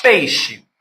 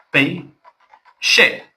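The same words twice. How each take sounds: First: Said in the usual way. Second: "Peixe" as pei, pause, xe; split into syllables. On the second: Shown as a demonstration. Teacher counting syllables for students, "Peixe" syllable by syllable. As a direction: break "Peixe" into two separate beats. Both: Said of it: "Duas sílabas".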